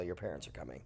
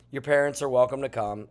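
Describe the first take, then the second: First: Much softer, lower teasing warning; mock ominous aside. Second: Said in the usual way. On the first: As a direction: drop your voice like a playful threat.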